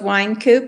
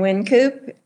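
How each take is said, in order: First: The first syllable rhymes with 'fine'. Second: The first syllable rhymes with 'fin'. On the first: "I've heard it pronounced both Wine Coop" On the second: "and Wind Coop"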